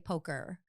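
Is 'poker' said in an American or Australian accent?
American. American accent, with an R sound at the end. Americans can understand it. "I really have to Americanize"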